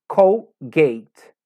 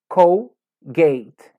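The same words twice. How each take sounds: No difference in how they are said.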